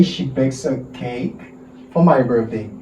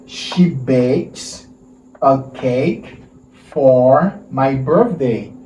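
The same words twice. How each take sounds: First: "she bakes a cake" run together as bakesa-cake; linked sound. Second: She bakes a cake said in separate chunks, with pauses between; word by word. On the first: Teacher modelling linked speech for the class, smoothly joined. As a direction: join "bakes a cake" so the words flow into one. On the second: Teacher splitting the sentence for students, careful chunks. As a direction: break "She bakes a cake for my birthday" into pieces for the class. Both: Shown as a demonstration. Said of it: "Let's make the linked sound".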